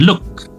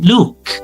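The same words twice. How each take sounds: First: The vowel is short and clipped. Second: The vowel is drawn out long. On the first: The speaker calls it wrong. "bukan look" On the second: The speaker calls it right. "pelafalannya itu pasti diayun"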